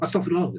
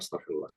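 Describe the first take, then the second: First: It is said sharply, in annoyance. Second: It is said softly and contritely. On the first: One is rebuking noisy children. "Kemudian kita nolak, astagfirullah gitu" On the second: One is asking forgiveness for oneself. "kita istighfar"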